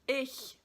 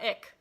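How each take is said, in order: First: The word ends in a soft hissing sound. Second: The word ends in a hard k sound. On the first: The speaker calls it right. "like a cat hissing" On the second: The speaker calls it wrong. "not ick, typically Americans say ick because you can't make the h sound"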